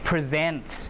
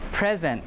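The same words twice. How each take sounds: First: The stress is on the second syllable. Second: The stress is on the first syllable. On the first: It means to show something to someone. "But the verb, you present, you show" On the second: It means a gift. "So the stress is on the first syllable"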